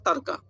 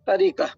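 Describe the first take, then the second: First: The word has two syllables, with no vowel after r. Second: The word has three syllables, with a vowel after r. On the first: This is how it is said in Urdu. "Urdu में बोलते हैं तरका" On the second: This is the original Arabic form. "अरबी में है असल में ये तरीक़ा"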